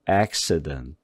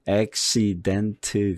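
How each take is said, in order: First: The middle vowel is a light, reduced uh. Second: The middle vowel is fully pronounced. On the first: The speaker calls it right. "이런 식으로다가 가볍게 어, 어, 어 이런 식으로 소리를 내요" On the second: The speaker calls it wrong. "accident 그러지 말고"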